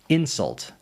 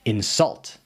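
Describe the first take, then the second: First: The stress is on the first syllable. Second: The stress is on the second syllable. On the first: It is a noun. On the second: It is a verb. "is a verb"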